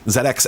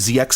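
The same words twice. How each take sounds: First: The letter Z is said as 'zed'. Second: The letter Z is said as 'zee'. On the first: The speaker calls it right. "rolls off the tongue way better" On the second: The speaker calls it wrong. "trying to say Z X Spectrum now feels very weird and uncomfortable to me"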